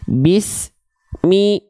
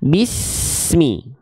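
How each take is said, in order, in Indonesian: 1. Bunyinya terputus antara s dan mi. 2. S mengalir ke mi tanpa putus. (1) "Jadi jangan begini" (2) "Tidak terputus ya"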